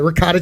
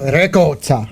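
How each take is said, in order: First: Ricotta is said with an American pronunciation. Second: Ricotta is said with an Italian-style pronunciation.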